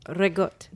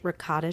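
First: The final vowel is dropped. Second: The final vowel is clearly pronounced.

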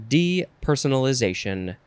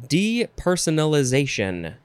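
Both takes have the same delivery.

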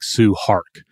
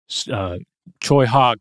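First: The name begins with an s sound. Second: The name begins with a ch sound. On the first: The speaker calls it wrong. "it looks kind of like Sue Hark" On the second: The speaker calls it right. "But it's more like Choi Hawk"

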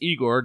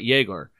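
First: The name begins with an 'ee' sound. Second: The name begins with a 'yeh' sound. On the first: The speaker calls it right. "It's Igor" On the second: The speaker calls it wrong. "not Yegor"

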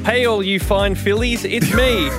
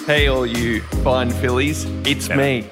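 First: It is read like an upbeat sales pitch. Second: It is read in a slower, seductive way.

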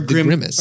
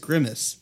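First: The name has an Italian-style pronunciation. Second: The name has a plain English pronunciation.

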